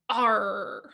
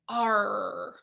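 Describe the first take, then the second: First: It is said briefly in a plain voice. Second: It is drawn out in a growly pirate voice. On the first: "You maybe don't say it quite as piratey" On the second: "a pirate would say R"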